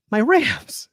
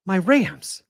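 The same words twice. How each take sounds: First: Much higher, pained repeat of the team name; exasperated cry. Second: Said in the usual way. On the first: Real, not acted. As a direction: cry out for your team in despair. Host laments his team's inaction.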